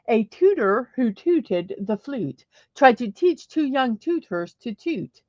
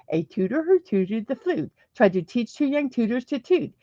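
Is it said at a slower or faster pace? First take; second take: slower; faster. First: It is said at a slower pace. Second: It is said at a faster pace.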